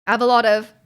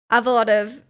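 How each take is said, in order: Both takes have the same delivery.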